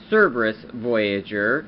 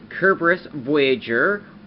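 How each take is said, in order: First: The name begins with an S sound. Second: The name begins with a K sound. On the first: This is the English way of saying the name. "the English pronunciation" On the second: This is the Japanese way of saying the name. "Kerberos is the Japanese pronunciation"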